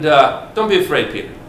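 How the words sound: It is said warmly, with a smile. "did he say it with this smile?"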